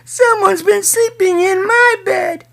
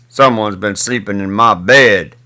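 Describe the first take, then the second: First: It is said in a tiny, small voice. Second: It is said in a big, deep voice. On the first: "cried in his wee little voice" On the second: "he said in his great big voice"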